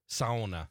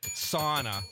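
First: Sauna is said the Finnish-influenced regional way. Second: Sauna is said the general American way. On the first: This is how people in Finnish country up north say it. "How would you have pronounced that?" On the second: This is how people elsewhere say it. "Sauna for the people here"

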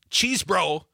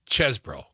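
First: The first syllable has a long ee vowel. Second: The first syllable has a short e vowel. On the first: The speaker calls it wrong. "It's not cheese bro" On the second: The speaker calls it right. "the E is like dessert, not desert"

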